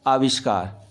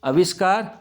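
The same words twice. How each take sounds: First: आविष्कार begun with long aa, falling; long opening aa. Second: आविष्कार begun with short a, avishkaar, rising; short-a misreading. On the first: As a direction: stretch the first vowel: aavishkaar for आविष्कार. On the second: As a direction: clip the opening vowel of आविष्कार to a short a. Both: Shown as a demonstration. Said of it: "आ की मात्रा आएगी".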